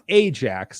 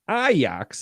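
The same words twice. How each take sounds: First: Ajax is pronounced the usual English way. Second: Ajax is pronounced the Italian way. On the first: "not Ajax as you would pronounce it" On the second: "Ajax as we pronounce it in Italy"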